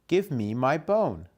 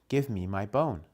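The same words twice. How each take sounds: First: It is said more loudly. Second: It is said quietly.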